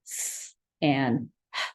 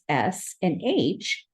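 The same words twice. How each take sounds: First: S and H said as their sounds, hiss then breathy h; letter sounds. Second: S and H said slowly as letter names. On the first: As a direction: say "S and H" as the sounds s and h, low and slow. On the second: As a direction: say "S and H" as the names ess and aitch, slowly. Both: Shown as a demonstration. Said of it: "have their own sounds".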